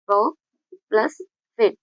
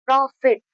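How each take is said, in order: First: प्रो, pause, प्लस, pause, फिट, each part apart; syllable split. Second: Said in the usual way. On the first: Shown as a demonstration. Teacher splits प्रॉफिट for students into two syllables. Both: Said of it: "ये रहे दो syllable".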